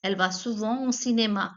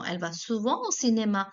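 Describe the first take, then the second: First: Same brisk French sentence again; teacher repeating the example; repeat model. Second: French sentence read briskly; teacher reading an example sentence; model sentence. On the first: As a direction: repeat it for the students. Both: Shown as a demonstration. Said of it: "which is souvent".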